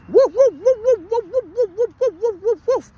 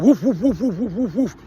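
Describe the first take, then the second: First: Very high-pitched rapid woofs; imitated little-dog yapping. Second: Rapid string of spoken woofs; imitated dog bark. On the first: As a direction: mimic a tiny mouthy sausage dog yapping. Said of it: "the mouth on that dog". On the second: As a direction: bark like your dog warning off another. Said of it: "my dog's already like".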